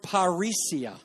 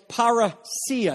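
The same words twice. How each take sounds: First: The stress falls before the third syllable. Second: The stress falls on the third syllable. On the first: The speaker calls it wrong. "I just said it wrong" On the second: The speaker calls it right. "You see the iota at the end, and you see that acute accent? That means that's what's going to be stressed"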